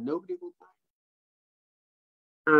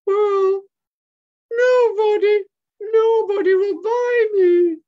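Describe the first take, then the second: First: Said in the usual way. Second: Very high, loud, drawn-out monkey wail; Michaela's sad wail. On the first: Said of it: "She said". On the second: Acted. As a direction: wail slowly like a forlorn puppet. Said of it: "And Michaela says".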